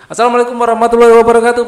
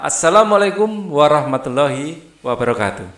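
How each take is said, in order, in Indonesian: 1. Diucapkan dengan terburu-buru, langsung disambung ke kata berikutnya. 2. Diucapkan dengan tidak terburu-buru, lalu diikuti jeda. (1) "Jangan langsung nerocos gitu" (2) "ngomong jangan tergesa-gesa"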